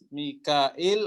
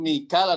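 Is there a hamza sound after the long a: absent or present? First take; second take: present; absent. First: The name is said with a hamza after a. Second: The name is said without a hamza after a. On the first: This is another reader's transmitted reading. "Biziyadati hamzah dengan menambahkan hamzah" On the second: This is one reader's transmitted reading. "untuk Mikal adalah Imam Hafs"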